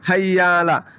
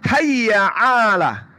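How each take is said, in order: First: The two words run together with no throat catch. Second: A throat sound separates the two words. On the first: The speaker calls it wrong. "bukan hayyala" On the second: The speaker calls it right. "tapi hayya 'ala"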